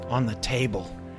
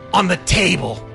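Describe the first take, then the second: First: The line is read flatly without acting. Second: The line is acted with expression.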